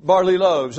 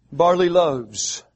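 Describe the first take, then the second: First: "barley loaves" repeated, barley punched with a falling tune; repeated stress on barley. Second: "barley loaves" said slowly, barley stressed with a fall. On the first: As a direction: hammer "barley" again. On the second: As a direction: lean on "barley", slow and deliberate. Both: Shown as a demonstration. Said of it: "Five barley loaves".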